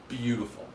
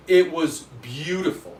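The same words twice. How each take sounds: First: Said in the usual way. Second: It and beautiful louder, longing; emphatic beautiful. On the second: Real, not acted. To chat, about the pawn shop gun, emphatic longing. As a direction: lean into beautiful, a bit louder.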